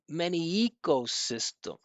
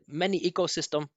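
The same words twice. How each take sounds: First: The stressed vowel rises clearly; other syllables are small. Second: The syllables sound even, with little stress contrast. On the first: The speaker calls it right. "the up and down of that stressed vowel sound" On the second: The speaker calls it wrong. "He said many ecosystem"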